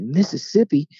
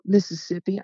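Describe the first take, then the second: First: Louder, higher questioning echo of MISSISSIPPI; surprised echo. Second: Higher voice, lightly imitating a Southern girl; mimicked Southern girl. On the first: Retold or imitated. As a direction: repeat it back in mock amazement. His surprised echo of her answer. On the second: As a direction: answer as the girl, pitched up. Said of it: "cute little Southern accent".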